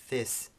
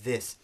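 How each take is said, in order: First: The th sound at the start is voiceless. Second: The th sound at the start is voiced. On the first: The speaker calls it wrong. "we don't say this, do we?" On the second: The speaker calls it right. "We say this"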